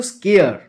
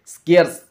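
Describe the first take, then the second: First: স্কেয়ার with no final s, like scare; স্কেয়ার pronounced scare, raised and emphatic. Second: স্কেয়ার্স with a clear final s, like scarce; স্কেয়ার্স pronounced scarce, loud and careful. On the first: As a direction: open স্কেয়ার ending without the s. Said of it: "এর উচ্চারণটা কিন্তু স্কেয়ার". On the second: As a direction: end স্কেয়ার্স on a hissed s sound. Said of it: "এর উচ্চারণটা স্কেয়ার্স". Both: Shown as a demonstration.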